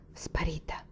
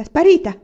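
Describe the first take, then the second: First: Very soft, almost whispered; hushed thought. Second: High, loud cry of alarm; shouted reply. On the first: Son broods on Peonia to himself, hushed. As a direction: breathe the word to yourself. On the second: Servant answers the father, shouting back. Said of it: "che gridava in risposta". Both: A narrator's reading.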